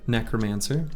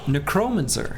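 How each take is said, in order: First: The second syllable is not stressed. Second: The stress falls on the second syllable.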